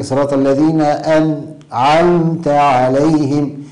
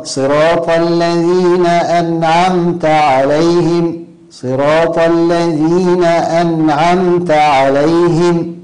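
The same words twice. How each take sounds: First: أنعمت split as "an", gap, "'amta"; pause on nūn. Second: Slow, higher chanted recitation, أنعمت unbroken with a clear still n; correct joined nūn. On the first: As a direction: break أنعمت in two after the n. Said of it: "دون أن يسكت عليها". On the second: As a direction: chant it slowly, n of أنعمت flowing into the ع. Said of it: "الصواب". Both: Shown as a demonstration.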